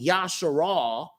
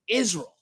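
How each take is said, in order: First: The first vowel is an open ah sound. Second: The first vowel is a front ee sound. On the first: The speaker calls it right. "instead of it being Yasharal" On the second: The speaker calls it wrong. "they pronounce this as an E sound"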